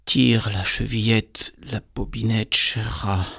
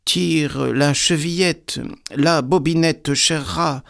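First: Lightly sweetened wolf call; slightly softened voice. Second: High, slow, sing-out grandmother call. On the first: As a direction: soften it a little to pass as grandmother. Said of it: "cria en adoucissant un peu sa voix". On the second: Grandmother in bed calling to the visitor, high calling voice. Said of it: "lui cria". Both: A narrator's reading.

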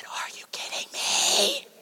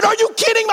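First: Much higher, strained, breathless whisper; disbelieving whisper. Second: Much higher and louder, incredulous; exasperated outburst. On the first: Husband to wife with a dead phone, stunned whisper. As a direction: squeeze out stunned disbelief, slow. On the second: Husband to wife with a dead phone, exasperated. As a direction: blurt out frustrated disbelief. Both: Retold or imitated.

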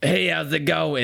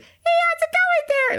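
First: Second character voice. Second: Squeaky falsetto, much higher. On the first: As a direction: switch to another character's voice. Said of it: "immediately have to go to". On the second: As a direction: squeal it way up high. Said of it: "a really high pitched voice". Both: Shown as a demonstration.

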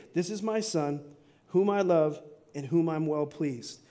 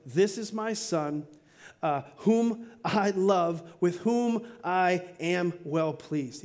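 First: Said in the usual way. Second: Slow, measured words spaced out; "This is my son" given very slowly with weight; a heavenly father speaking slowly and solemnly; solemn voice of God. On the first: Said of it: "He says three things". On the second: Retold or imitated. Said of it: "God speaks and says".

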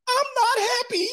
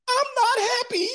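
First: Tiny high squeak breaking into laughter; laughing falsetto squeak. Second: Tiny falsetto squeak, much higher; squeaky mock whine. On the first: Retold or imitated. Wife whining to husband, squeaky falsetto through laughter. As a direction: squeal it while cracking up. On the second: Wife whining to husband she is not happy, falsetto squeak. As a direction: squeak it like a petulant child.

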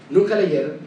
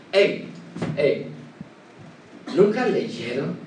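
First: Said in the usual way. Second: Lower, pointed rebuking question; public rebuke. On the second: Shown as a demonstration. The Lord rebukes the religious leaders, pointed rebuke. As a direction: prod them into shame with a question. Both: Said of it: "esto era una reprensión pública".

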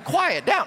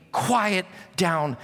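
First: Raised-pitch plea for order; calling a crowd to order. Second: Measured, unhurried command; steady authority, without shouting; Jesus. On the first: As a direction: try to hush a chatting congregation. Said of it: "could not even say this to you all". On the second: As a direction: still a storm with two calm words. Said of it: "Jesus says this to a hurricane". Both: Acted.

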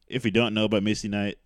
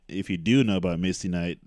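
First: "don't" leaned on as a contrast; emphasis landing on "don't"; stress on DON'T. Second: "do" punched against the earlier negative; emphatic, contrastive "do"; stress on DO. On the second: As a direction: hit the word "do" firmly. Corrects to do know. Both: Real, not acted.

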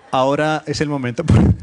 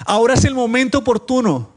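First: Said in the usual way. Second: High, loud exclamation, falling at the end; exclamatory, with intention. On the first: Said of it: "ahí no está el signo de admiración". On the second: Shown as a demonstration. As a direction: cry it out like a line in exclamation marks. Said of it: "en signo de admiración es como, como con intención". (con signos de admiración, con intención)

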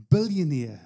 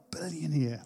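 First: Said in the usual way. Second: "Billionaire" said low and very soft, falling in awe; awed hush. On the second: Retold or imitated. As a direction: breathe "Billionaire" out softly like it stuns you. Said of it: "I was like".

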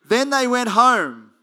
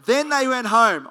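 First: "Then they went home" high, loud and slow; slower emphasis. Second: High, loud "Then they went home"; punchy emphasis. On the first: Preacher repeating the ending for the congregation, slow and loud. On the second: Preacher making the congregation note the ending, "they" loud. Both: Shown as a demonstration. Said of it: "You got that?".

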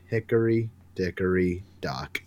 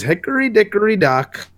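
First: "Hickory dickory dock" slow, much lower and softer, trailing off; soft closing line. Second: "Hickory dickory dock" chanted much higher, bright and sing-song; sing-song rhyme. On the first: Harley ending her rhyme over a bloodied Booster, slow and soft. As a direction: let the last "Hickory dickory dock" sink slow and quiet. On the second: Harley opening her nursery rhyme to Booster, high and sing-song. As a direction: start the rhyme high and playful, like a kid's chant. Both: Acted.

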